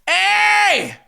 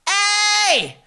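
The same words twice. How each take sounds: First: A pushed, beefy twangy distortion. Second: A pure, lighter twangy distortion.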